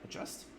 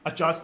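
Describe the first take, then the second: First: The word is whispered quietly. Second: The word is said loudly. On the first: The speaker calls it right. "but you whisper it" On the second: The speaker calls it wrong. "not adjust loudly"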